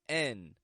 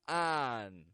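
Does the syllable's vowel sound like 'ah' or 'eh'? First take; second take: eh; ah. First: The vowel is a short 'eh' sound. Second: The vowel is an open 'ah' sound. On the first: The speaker calls it wrong. "make a regular eh, eh sound with these" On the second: The speaker calls it right. "one final spelling with the ah sound"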